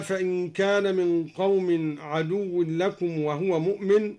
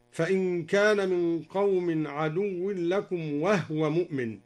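First: Said in the usual way. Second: وهو chanted as wahwa with the ه unvowelled; silent ha. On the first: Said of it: "قوله تعالى". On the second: Shown as a demonstration. Teacher demonstrating Duri's reading: وهو with silent ha. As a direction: recite وهو with a still ha. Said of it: "أسكن الهاء هكذا".

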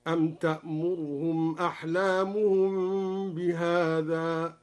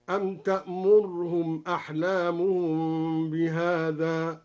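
First: Slow recitation, only a snatched u on the ra of "تأمرهم"; measured demo, fleeting vowel after the r in "تأمرهم"; ikhtilas of damma. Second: Slow recitation, "تأمرهم" as ta'murhum with vowelless r; measured demo, no vowel after the ra of "تأمرهم"; sukun on ra. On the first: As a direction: recite slowly, barely sounding the damma in "تأمرهم". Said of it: "باختلاس ضمة الراء". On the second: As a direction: recite slowly, stopping the r dead in "تأمرهم". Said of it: "أو إسكان الراء هكذا". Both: Shown as a demonstration.

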